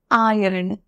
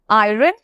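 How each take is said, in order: First: "আয়রন" as eye-urn, r nearly silent; correct iron pronunciation. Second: "আয়রন" said with the r sounded, eye-ren; mispronounced iron. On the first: Teacher models iron for learners, correctly pronounced eye-urn. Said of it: "সঠিক pronunciation হচ্ছে". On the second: Teacher shows learners the common error in iron, mispronounced. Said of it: "উচ্চারণটা কিন্তু ভুল". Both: Shown as a demonstration.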